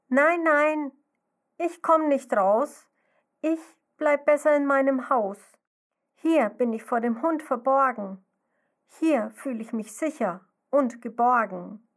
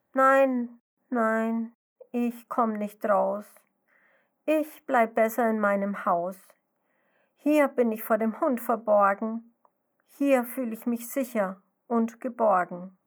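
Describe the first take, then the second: First: Scared little snail. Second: Sadly refuse, the fright turned to sorrow; sad call. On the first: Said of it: "Sie ruft aus ihrem Häuschen". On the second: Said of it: "Traurig ruft die Schnecke dem Grashüpfermädchen zu". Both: Acted.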